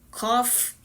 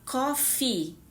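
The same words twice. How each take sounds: First: The final vowel is short. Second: The final vowel is long. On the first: The speaker calls it wrong. "está errado" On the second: The speaker calls it right. "esses dois ezinhos ele tem um som mais longo"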